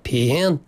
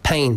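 First: The pitch goes up and down within the word. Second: The pitch stays level within the word. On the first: The speaker calls it wrong. "But he's saying pain" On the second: The speaker calls it right. "It's just pain"

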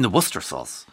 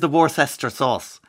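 First: Worcester is said in a short, clipped form. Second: Worcester is sounded out much as it is spelled. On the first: The speaker calls it right. "You mean the Worcester sauce" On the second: The speaker calls it wrong. "where is the Worcester sauce?"

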